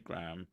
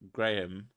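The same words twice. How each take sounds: First: It is said with an American pronunciation. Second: It is said with a British pronunciation. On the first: The speaker calls it wrong. "Americans say Graham" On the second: The speaker calls it right. "We properly say Graham"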